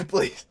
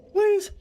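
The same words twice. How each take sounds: First: Said in the usual way. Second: Please squeaked very high; high squeaky plea. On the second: Acted. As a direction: beg in a tiny high voice. Begging chat to stop hydrates.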